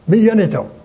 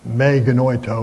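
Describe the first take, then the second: First: The second word begins with a y sound. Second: The second word begins with a hard g sound. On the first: The speaker calls it right. "The Greeks say mi yenito" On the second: The speaker calls it wrong. "don't say me genoito or whatever that is"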